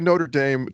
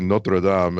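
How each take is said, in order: First: Notre Dame is said with an American English pronunciation. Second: Notre Dame is said with a French pronunciation. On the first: It refers to the university and its football team. "To me, you're talking about a university" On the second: It refers to the cathedral in Paris. "I hear the you know the the church in France"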